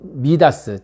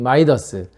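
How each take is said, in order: First: The name begins with a 'mee' sound. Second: The name begins with a 'my' sound. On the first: This is the original form of the name. "원래 이름은 미다스" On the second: This is the English-style form of the name. "영어식 발음인 마이더스"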